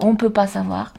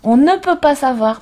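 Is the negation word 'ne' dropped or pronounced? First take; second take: dropped; pronounced. First: The negation word ne is left out. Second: The negation word ne is clearly pronounced. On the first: The speech sounds casual and everyday. "plutôt que" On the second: The speech sounds more controlled and careful. "si de temps en temps, tu te souviens et tu dis"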